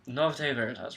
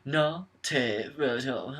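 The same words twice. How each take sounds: First: The words are run smoothly together. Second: Each word is over-enunciated separately. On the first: The speaker calls it right. "Run it together" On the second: The speaker calls it wrong. "He over enunciates enunciates it"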